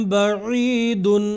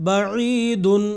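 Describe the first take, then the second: Both takes have the same delivery.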